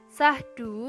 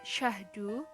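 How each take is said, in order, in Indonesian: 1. Kata ini diawali dengan bunyi s biasa. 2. Kata ini diawali dengan bunyi sh. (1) "fonem S Y diucapkan menjadi S" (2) "seharusnya terbaca syahdu"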